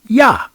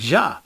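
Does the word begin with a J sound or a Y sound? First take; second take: Y sound; J sound. First: The word begins with a Y sound. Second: The word begins with a J sound. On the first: The speaker calls it right. "It's supposed to be pronounced like Yah with a Y" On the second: The speaker calls it wrong. "Jah supposed to pronounce a little different than that"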